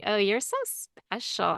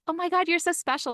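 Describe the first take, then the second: First: It sounds mocking and condescending. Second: It sounds genuinely admiring and enthusiastic.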